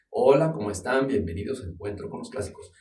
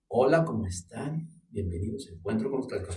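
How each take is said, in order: First: It is said moderately loud. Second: It is said moderately soft.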